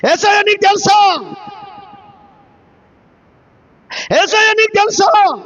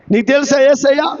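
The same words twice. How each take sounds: First: High, called-out preaching question; shouted challenge. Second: Lowered rhetorical question, rising end; restrained question. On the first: Preacher demands do you know Jesus, raised and shouted. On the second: Preacher asks do you know Jesus, held back and questioning. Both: Real, not acted.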